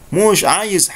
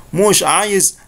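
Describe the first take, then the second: Both takes have the same delivery.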